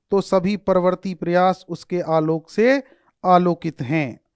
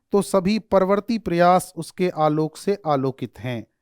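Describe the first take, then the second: Both takes have the same delivery.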